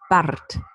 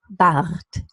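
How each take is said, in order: First: The R is trilled with the tongue tip. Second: The R is trilled at the back of the throat. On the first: "Now with a post-alveolar trill" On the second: "And now with the trill"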